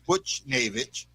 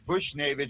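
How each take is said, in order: First: The first syllable sounds like 'butch'. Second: The first syllable sounds like 'bush'. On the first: The speaker calls it right. "and it's" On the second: The speaker calls it wrong. "so I say it wrong"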